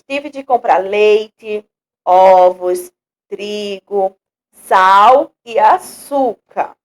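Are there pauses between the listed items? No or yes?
yes. A short pause separates each item in the list. "com a vírgula nós vamos dar uma, uma pausa"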